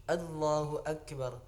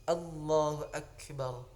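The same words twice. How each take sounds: Both takes have the same delivery.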